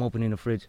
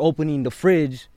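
First: The phrase is said in a plain, flat voice. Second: The phrase is said with a raised, emphatic voice. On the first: The action is stated without any feeling. The speaker calls it wrong. "opposed to just" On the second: The action is given feeling and draws the listener in. The speaker calls it right. "raise your voice because you're trying to emphasize"

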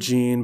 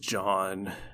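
First: The name sounds like 'Gene', with an 'ee' vowel. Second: The name sounds like 'John', with an 'ah' vowel. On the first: The speaker calls it wrong. "I call him Gene" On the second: The speaker calls it right. "but I know his name is John"

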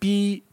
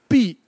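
First: The pitch stays high and level. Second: The pitch falls sharply from high to low. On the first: It is a vulgar word. "first tone" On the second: It is a family name. "fourth tone"

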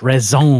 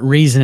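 First: It is said with a French-style pronunciation. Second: It is said the plain English way. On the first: The speaker calls it right. "make something up like it's like French" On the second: The speaker calls it wrong. "No, it's not reason"

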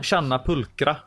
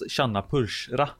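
First: The ch in pulchra is a K sound. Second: The ch in pulchra is not a K sound. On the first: The speaker calls it right. "Det ska vara som K" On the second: The speaker calls it wrong. "Jag har ju alltid satt tjanna pulsra. ... det är tydligen fel"

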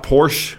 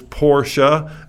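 First: The final E is silent, one syllable. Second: The final E is pronounced, two syllables. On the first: The speaker calls it wrong. "It's not Porsche" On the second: The speaker calls it right. "the E is not silent. You pronounce the E"

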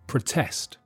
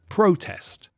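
First: The stress is on the second syllable. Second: The stress is on the first syllable.

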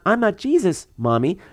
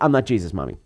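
First: There is a pause before 'Mommy'. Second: 'Jesus Mommy' runs together without a pause.

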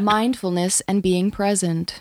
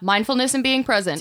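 First: It is said in a soft lullaby voice. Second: It is said in a normal speaking voice.

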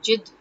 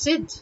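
First: The word begins with a j sound. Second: The word begins with a z sound. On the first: The speaker calls it wrong. "In Hindi they cannot generally pronounce the z word, they would end up saying jid" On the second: The speaker calls it right. "But it's zid"

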